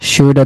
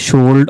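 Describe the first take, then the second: First: The L sound is left out entirely. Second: The L sound is pronounced before the D. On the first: The speaker calls it right. "শুড অথবা উড" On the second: The speaker calls it wrong. "অনেকে বলে শুল্ড"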